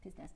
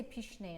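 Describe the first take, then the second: First: Pince-nez said the English way, PINS-nez with a z; anglicized Pince-nez, short and plain; English pronunciation of Pince-nez. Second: Pince-nez said the French way, pæns-NAY with a soft sh; French pronunciation of pince-nez. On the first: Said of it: "Okay, fine". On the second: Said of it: "We say pince-nez in French". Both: Shown as a demonstration.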